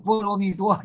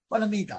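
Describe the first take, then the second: First: It is said as bo-luo-mi-duo. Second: It is said as ba-la-mi-da. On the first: This is the modern pronunciation. "现在就波罗蜜多就这样念了" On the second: This is the old pronunciation. "过去这个念法"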